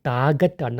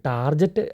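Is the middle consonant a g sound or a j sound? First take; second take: g sound; j sound. First: The middle consonant is a hard g sound. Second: The middle consonant is a soft j sound. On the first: The speaker calls it right. "അവിടെ ഗ സൗണ്ടാണ് correct" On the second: The speaker calls it wrong. "ടാർജറ്റ് അല്ല"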